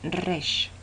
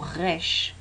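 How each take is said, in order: First: The r sounds like a Spanish r. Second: The r is not like a Spanish r. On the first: It is the traditional Torah pronunciation. The speaker calls it right. "la manera correcta de la Torá de pronunciarlo" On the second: It reflects the speakers' language or origin. The speaker calls it wrong. "por temas de idioma o de procedencia de las personas"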